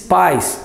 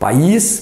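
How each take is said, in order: First: The stress falls on the vowel a. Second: The stress falls on the vowel i. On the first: It means parents. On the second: It means a country.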